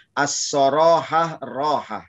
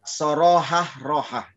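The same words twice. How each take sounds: First: As-sorohah rohah slow with the As clearly added; corrected recitation. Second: Sorohah rohah said without the As, slow; missing as. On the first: Preacher correcting his recitation to As-sorohah rohah, slow. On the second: Preacher's first recitation Sorohah rohah, missing the As. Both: Shown as a demonstration. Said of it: "Ini kurang as ya".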